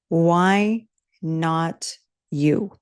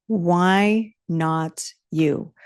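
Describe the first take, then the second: First: Very slow question. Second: Very slow falling repeat. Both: Real, not acted.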